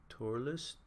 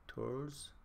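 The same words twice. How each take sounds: First: Turles said in two syllables, TOR-less; two-syllable pronunciation. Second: Turles run together as one syllable, TORLZ; one-syllable pronunciation. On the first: Trying out a viewer's name Turles, pronounced TOR-less. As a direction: say Turles with a short vowel before the final s. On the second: Asking how to say the viewer's name Turles, pronounced TORLZ. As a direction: say Turles with no vowel between l and final z. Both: Shown as a demonstration. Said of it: "you told me how to pronounce it".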